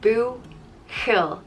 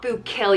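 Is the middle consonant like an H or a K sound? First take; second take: H; K. First: The middle consonant is a breathy h sound. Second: The middle consonant is a hard k sound. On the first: The speaker calls it right. "it's like a h" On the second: The speaker calls it wrong. "it's not boo kill, you don't pronounce it like k"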